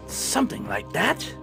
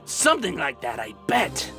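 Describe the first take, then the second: First: "Something like that" as a probe, rising on "that"; "Something like that" asked low with a rising end; rising question. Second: "Something like that" as a settled guess, falling; "Something like that" said low with a falling end; falling statement. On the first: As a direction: lift "that" into a question. Guess turned into a question. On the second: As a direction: let "that" drop, knowingly. Guess stated, then asked. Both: Acted.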